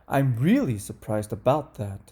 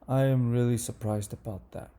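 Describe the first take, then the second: First: The voice sounds excited, with pitch going up. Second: The voice sounds disappointed, with pitch going down. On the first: The speaker is pleased by the surprise. "number one. ... the intonation goes up" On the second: The speaker is let down by the surprise. "number two. ... the intonation goes down"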